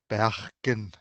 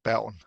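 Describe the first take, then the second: First: It is said with a local Bergen accent. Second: It is said with a standard Danish accent. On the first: "in some dialects here in Bergen" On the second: "in standard Danish, I would say"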